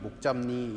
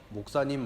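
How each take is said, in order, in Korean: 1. 중간 자음은 'j' 소리입니다. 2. 중간 자음은 분명한 's' 소리입니다. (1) "목잡니 이렇게 발음을 했어요" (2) "목사님 목사님이라고 부르는 게 힘들었던 것 같아요"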